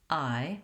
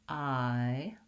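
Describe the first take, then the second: First: The sound is said quickly. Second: The sound is drawn out slowly. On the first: "and then speeding up" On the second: "Saying it slowly"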